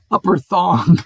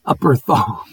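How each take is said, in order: First: Breaking into laughter on Upper Thong; real giggle over the name, can't hold it; laughing. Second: Said in the usual way. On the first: Real, not acted. Reading place names, cracks up laughing.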